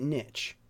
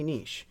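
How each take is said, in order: First: It is said like 'nitch', rhyming with itch. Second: It is said the French way, not rhyming with itch. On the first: "if you want to say it niche, I don't mind as long as you write N I T C H" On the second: "I'm going to say niche"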